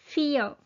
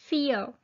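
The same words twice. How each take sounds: The two takes are said the same way.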